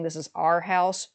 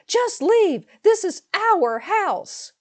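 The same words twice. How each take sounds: First: Said in the usual way. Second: Shrill high scream, stretched slowly. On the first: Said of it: "her saying". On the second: Retold or imitated. Sister-in-law points at the door and screams at the narrator. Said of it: "scream at this point".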